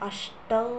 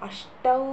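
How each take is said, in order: No difference in how they are said.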